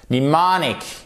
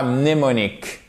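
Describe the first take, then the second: First: "Mnemonic" said "ni-MAH-nik"; English "Mnemonic" with no M at the start; silent M. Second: "mnémonique" the French way, starting M-N; wrong, French-style "mnémonique"; M pronounced. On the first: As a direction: start "Mnemonic" on N, stress the second syllable. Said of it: "ici, on ne l'entend pas". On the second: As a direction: sound the first M in "mnémonique". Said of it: "et pas mnémonique". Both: Shown as a demonstration.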